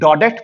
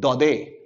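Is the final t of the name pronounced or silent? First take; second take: pronounced; silent. First: The final t is pronounced. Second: The final t is silent.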